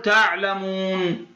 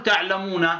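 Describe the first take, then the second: First: تعلمون ending on a silent, stopped nun; correct pausal stop. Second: تعلمون with the final nun still voweled, not stopped; wrong pausal form. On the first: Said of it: "نقول تعلمون". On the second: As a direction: say تعلمون moving on past the nun. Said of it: "لا نقول تعلمون". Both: Shown as a demonstration.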